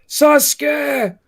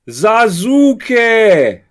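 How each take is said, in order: First: The name is said with Japanese-style reduced vowels. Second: Every letter of the name is fully pronounced. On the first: The speaker calls it right. "when someone cries Sasuke" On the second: The speaker calls it wrong. "they pronounce every letter"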